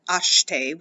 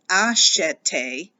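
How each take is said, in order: First: Acheter in two syllables, ash-tay; swallowed middle e. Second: Acheter with the middle e sounded as a clear eh; middle eh pronounced. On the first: Teacher contrasting the everyday form, acheter with swallowed e. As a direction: drop the middle e of acheter so sh runs into t. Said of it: "but it gets swallowed". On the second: French teacher showing the future stem, acheter with a sounded eh. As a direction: say acheter in three syllables, ah-SHEH-tay. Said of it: "now you're actually going to pronounce that eh". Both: Shown as a demonstration.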